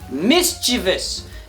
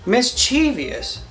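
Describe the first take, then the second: First: The word is said with three syllables. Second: The word is said with four syllables. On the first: The speaker calls it right. "Now say it with me" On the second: The speaker calls it wrong.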